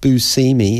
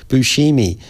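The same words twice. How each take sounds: First: The name is said in an English-style pronunciation. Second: The name is said in a Sicilian Italian pronunciation. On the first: This is how the bearer of the name says it. The speaker calls it wrong. "Buscemi is how he pronounces it" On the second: This is how people in the name's home region say it. The speaker calls it right. "in Sicily they pronounce it Buscemi"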